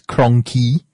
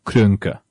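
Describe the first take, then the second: First: The first vowel is a plain English o sound. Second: The first vowel is a rounded German umlaut sound. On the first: "The Americans and the British pronounce the name as Kroenke" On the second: "it was supposed to be an umlaut... To go like Kroenke. That's the guy's actual name"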